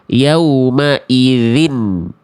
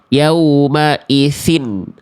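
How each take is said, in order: First: The consonant is said with voice, no breath. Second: The consonant is said with breath, hissing. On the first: The speaker calls it right. "yang ngalir cuman suara ditahan udara atau anginnya" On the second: The speaker calls it wrong. "jangan sampai kita baca huruf zalnya keluar nafasnya"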